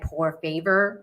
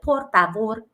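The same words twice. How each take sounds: First: It is said with an anglicized American accent. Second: It is said with a Spanish accent, rolled R. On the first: The speaker calls it wrong. "I don't say like por favor" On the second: The speaker calls it right. "I actually do try to say like por favor"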